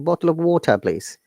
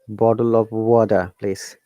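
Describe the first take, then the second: First: The t is strong and the r is silent. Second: The t sounds like d and the r is sounded. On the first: "T is strong and no R sound" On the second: "Americans will pronounce it not T like D"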